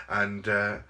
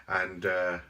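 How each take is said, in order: Both takes have the same delivery.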